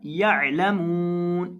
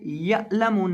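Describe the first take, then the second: First: यअलमून with the ain from the middle of the throat; slow recitation with a throaty ain. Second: यअलमून said without the throat sound; a flat, plain ain in यअलमून; wrong way. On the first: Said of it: "आइन को हलक के दरमियान से अदा करेंगे". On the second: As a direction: mistaken reading of यअलमून. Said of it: "इसे यअलमून नहीं पढ़ना". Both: Shown as a demonstration.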